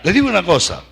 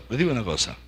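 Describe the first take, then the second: First: Said in the usual way. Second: Much softer and lower, almost confiding; hushed repeat. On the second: Shown as a demonstration. Preacher confiding to the congregation, hushed. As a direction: draw them in by dropping the voice. Repeated, then dropped to a hush.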